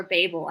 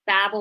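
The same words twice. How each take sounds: First: Babel said with long A, "BAY-bul"; second pronunciation option. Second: Babel said with short A, like "babble"; flat short A in Babel, "BAB-ul"; first pronunciation option. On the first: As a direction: rhyme Babel with "label". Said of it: "or Babel". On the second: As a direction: rhyme Babel with "rabble". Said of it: "I don't know if it's Babel". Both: Shown as a demonstration.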